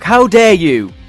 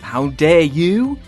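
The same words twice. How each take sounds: First: It is said as a statement, falling. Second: It is said as a question, rising.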